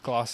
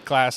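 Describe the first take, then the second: First: It is said with a South African accent. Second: It is said with an American accent. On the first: It is the usual way at home. "instead of class" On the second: It shows an accent picked up abroad. "like saying class instead of class"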